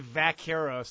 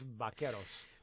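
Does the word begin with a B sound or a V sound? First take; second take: V sound; B sound. First: The word begins with a V sound. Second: The word begins with a B sound. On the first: The speaker calls it wrong. "But if you say vaqueros, that's like asking for some salsa with your chips" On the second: The speaker calls it right. "it's pronounced with a B, not a V"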